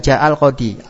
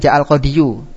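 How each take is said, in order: First: The last word ends with a plain 'i' sound. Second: The last word ends with a full 'yu' sound. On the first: This is how it is actually read. "dibacanya ja'al qodi" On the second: This is the underlying original form. "asalnya ja'al qodiyu"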